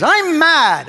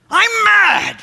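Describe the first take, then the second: First: Higher, louder mock-angry boom; Tony Robbins big voice. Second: Much higher, louder mock-angry boom; Tony Robbins big voice pushed further. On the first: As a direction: announce your anger like a motivational guru on stage. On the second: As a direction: crank the guru anger right up to the top. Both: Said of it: "that big voice of his".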